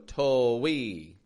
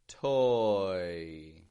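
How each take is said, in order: First: An extra w sound breaks the vowel glide. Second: The vowel glides smoothly with no w sound. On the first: The speaker calls it wrong. "They'll go to-wee. We want to be careful that we don't add a w" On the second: The speaker calls it right. "we just make one smooth movement"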